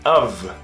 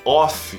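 First: The word ends with a V sound. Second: The word ends with an F sound. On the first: The speaker calls it right. "Porque não tem som de F, tem som de V" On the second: The speaker calls it wrong. "você tem que parar de falar off"

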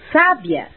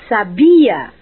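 First: The stress is on the first syllable. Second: The stress is on the second syllable. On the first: It means intelligent. "com acento no A" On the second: It is a form of the verb to know. "com a sílaba tônica na segunda sílaba"

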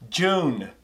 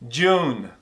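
Both takes have the same delivery.

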